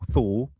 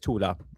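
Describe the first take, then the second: First: The name is said in an anglicized way. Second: The name is said in a German way. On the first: The speaker calls it wrong. "People say uh, the Thule or Tool or Tool" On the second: The speaker calls it right. "That's the German pronunciation of it"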